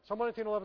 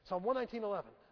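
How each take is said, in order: First: It is read flatly, without feeling. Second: It is read expressively, with feeling. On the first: The speaker calls it wrong. "I don't go" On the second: The speaker calls it right. "I always say them with feeling"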